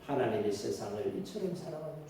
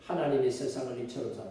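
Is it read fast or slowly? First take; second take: slowly; fast. First: It is read slowly. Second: It is read fast.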